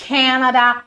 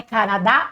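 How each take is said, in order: First: "Canadá" as CAN-uh-duh, stressed up front; English-style "Canadá" with weak final syllables; English pronunciation. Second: "Canadá" stressed on the last syllable; Portuguese pronunciation. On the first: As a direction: say "Canadá" the North American way. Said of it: "E aí sim você vai falar". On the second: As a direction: say "Canadá" the Brazilian way, ca-na-DA. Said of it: "Você tá falando Canadá". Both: Shown as a demonstration.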